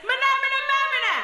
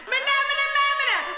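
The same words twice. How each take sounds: First: Alien chant. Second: Crowd yelling back. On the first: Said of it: "and the alien says". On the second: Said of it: "and the crowd yells back". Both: Acted.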